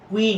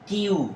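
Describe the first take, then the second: First: The word sounds like 'kwee'. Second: The word sounds like 'kyoo'. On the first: The speaker calls it wrong. "এটা কুই না" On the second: The speaker calls it right. "এটা হবে কিউ"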